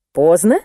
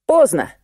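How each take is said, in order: First: Поздно? with rising tune; Поздно? asked back, pitch going up at the end; questioning rise. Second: Поздно with a firm final fall; поздно said as a statement, pitch dropping; falling tune. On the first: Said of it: "переспросила Амалия Карловна". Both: A narrator's reading.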